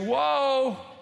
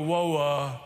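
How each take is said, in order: First: The word has a single syllable. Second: The word has two syllables, ending in uh. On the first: "I just say woe" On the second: "I don't go woe-uh"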